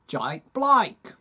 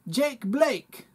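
First: It is said in an Australian accent. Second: It is said in a New Zealand accent. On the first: "Now I'm from Australia" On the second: "That kind of sounds like I'm from New Zealand"

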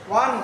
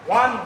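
The two takes are said the same way.

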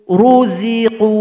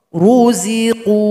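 The two takes are said the same way.

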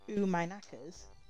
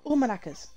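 First: The phrase is said slowly and drawn out. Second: The phrase is said at a normal, quick pace.

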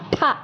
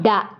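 First: The consonant is hard and voiceless, like ta. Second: The consonant is soft and voiced, like da. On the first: The same consonant comes right before it. "you pronounce it strong" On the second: No matching consonant comes before it.

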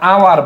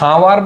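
First: The word begins with a vowel, no h. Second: The word begins with an audible h sound. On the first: The speaker calls it right. "আওয়ার বলো" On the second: The speaker calls it wrong. "হাওয়ার বলো না"

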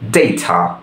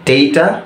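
First: It is said with a British accent. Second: It is said with a Bangladeshi accent.

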